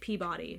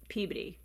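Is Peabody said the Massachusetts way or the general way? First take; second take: general; Massachusetts. First: It is said with the general non-local pronunciation. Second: It is said with the Massachusetts local pronunciation. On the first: This is how people elsewhere say it. The speaker calls it wrong. "everywhere else, people say it Peabody" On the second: This is how locals in Massachusetts say it. The speaker calls it right. "I'm from Massachusetts, and there's a city or a town called Peabody, and we say Peabody"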